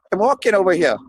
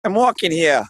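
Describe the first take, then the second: First: Put-on a light New York accent on "walking"; lightly voiced New York guy calling "I'm walking over here"; mild New York impression. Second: New York accent. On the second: Shown as a demonstration. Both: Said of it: "doing his New York impression".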